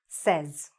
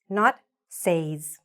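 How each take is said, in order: First: The vowel differs from the vowel in 'say'. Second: The vowel is the same as in 'say'. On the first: The speaker calls it right. "it sounds a little bit more like" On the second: The speaker calls it wrong. "not says. No"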